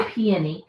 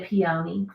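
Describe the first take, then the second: First: Peony said the other people's way; their peony. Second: Peony said her own way, pee-OH-nee. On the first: Showing how others say peony. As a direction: say peony as they do. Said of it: "They say peony". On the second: Contrasting her own peony with theirs. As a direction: say peony your way. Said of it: "and I say peony". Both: Shown as a demonstration.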